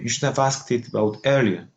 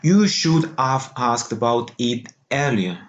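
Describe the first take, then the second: First: Only some words are stressed; others are reduced. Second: Every word gets equal stress and prominence. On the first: The speaker calls it right. "would be the most appropriate" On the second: The speaker calls it wrong. "it's too Spanish"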